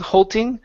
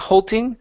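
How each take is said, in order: First: The middle consonant sounds like a T. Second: The same.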